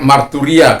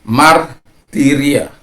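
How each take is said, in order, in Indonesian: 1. Vokal setelah 'mart' terdengar seperti 'u'. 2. Vokal setelah 'mart' terdengar seperti 'i'. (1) "itu bagi saya itu salah" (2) "Sebenarnya martiria"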